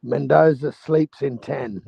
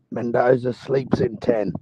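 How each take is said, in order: First: Mendoza sleeps in ten, each word slow and higher; slow emphatic prediction. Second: Said in the usual way. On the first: Real, not acted. Emphatic fight prediction, then repeated.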